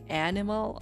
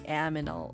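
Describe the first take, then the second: First: The n sound comes before the m sound. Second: The m sound comes before the n sound. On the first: "instead of saying like" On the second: "I'd say"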